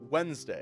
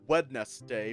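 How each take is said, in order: First: The first d is silent, said as Wenzday. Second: Every letter is sounded, including the first d. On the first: This is how the word is normally said. "but we say it as Wednesday" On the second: This is how the word is written. "is spelled Wednesday"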